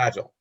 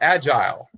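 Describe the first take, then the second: First: It is said with an American pronunciation. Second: It is said with a British pronunciation. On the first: "instead of agile" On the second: "British folks uh, will call it agile"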